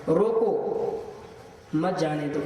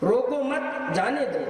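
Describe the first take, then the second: First: The pause comes right after the first word. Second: The pause comes right after the second word.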